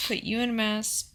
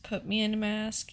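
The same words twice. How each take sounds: First: Said in the usual way. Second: Correcting herself by leaning on "me"; "me" said a bit stronger than the rest; fixing the slip by stressing "me". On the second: Shown as a demonstration.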